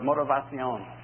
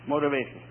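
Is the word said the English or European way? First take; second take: European; English. First: The word is said with a European pronunciation. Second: The word is said with an English pronunciation.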